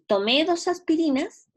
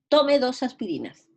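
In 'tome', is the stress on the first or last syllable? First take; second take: last; first. First: The stress in 'tome' is on the last syllable. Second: The stress in 'tome' is on the first syllable. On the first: It reports a past action. "hacerlo con acento, hablando como del pasado" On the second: It is a command to someone. "es imperativo"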